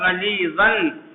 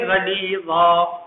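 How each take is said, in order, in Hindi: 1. शब्द -an की आवाज़ से खत्म होता है। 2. शब्द लंबी a की आवाज़ से खत्म होता है। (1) "लिखा जाएगा गलीज़न" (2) "पढ़ेंगे गलीज़ा"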